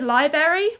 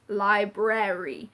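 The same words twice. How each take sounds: First: Only one r sound is heard. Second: Both r sounds are heard. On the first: The speaker calls it wrong. "I had friends who said library" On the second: The speaker calls it right. "there's two R's there, guys"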